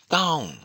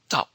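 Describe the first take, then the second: First: The syllable is said on a high pitch. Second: The syllable ends abruptly in a glottal stop. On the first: "high tone" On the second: "glottal stop"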